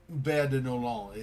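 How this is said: The name is said with a French pronunciation. The speaker calls it wrong. "like with a French pronunciation, but I guess it's wrong"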